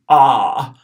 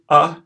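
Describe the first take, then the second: First: The vowel is held out longer. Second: The vowel is said briefly. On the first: "second A long" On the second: "First A short"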